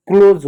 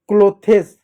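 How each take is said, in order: First: क्लोज in one syllable, "kloz"; correct pronunciation. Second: क्लोथेस in two syllables, "klo-thes"; aspirated th plus es in क्लोथेस; wrong pronunciation. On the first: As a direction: say क्लोज as "KLOHZ". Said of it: "क्लोज होता है". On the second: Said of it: "गलत होता है". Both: Shown as a demonstration.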